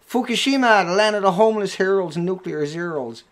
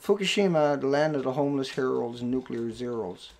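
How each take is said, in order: First: The reading sounds open, full and energetic. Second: The reading sounds restrained and low in energy. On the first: The speaker calls it right. "the minute your arms come into it, you open up your airways" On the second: The speaker calls it wrong. "I'm not going to move any of my body. I'm just going to read the title"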